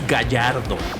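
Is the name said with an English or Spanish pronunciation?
Spanish. The name is said with Spanish sounds. The speaker calls it right. "The pronunciation is"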